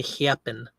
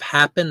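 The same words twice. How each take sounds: First: "happen" with a lazy, fronted Midwestern A; "happen" in a Midwest accent, A fronted. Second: Said in the usual way. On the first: Shown as a demonstration. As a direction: say "happen" the Midwest way, A drawn toward "hee-ap". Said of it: "they say happen". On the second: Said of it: "Instead of happen".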